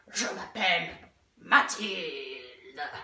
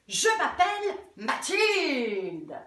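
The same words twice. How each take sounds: First: It is said in a monster's voice. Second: It is said in a superhero's voice.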